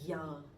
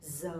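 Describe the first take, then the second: First: The letter is said with a y sound. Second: The letter is said with a z sound. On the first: The speaker is from the south. "people from the south, they would pronounce a little bit differently. they would say ya" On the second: The speaker is from the north. "I'm from the north, I'm from Hanoi, so my pronunciation would be Z"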